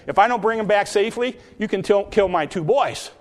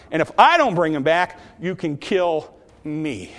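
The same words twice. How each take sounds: First: Quick, higher-pitched, offhand promise; casually acted pledge; half-hearted pledge. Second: "kill me" slowed right down, dropping on "me"; committed pledge. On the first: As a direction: rattle off the vow with little weight. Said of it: "I would say Reuben was half-hearted". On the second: Acted. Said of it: "But Judah said".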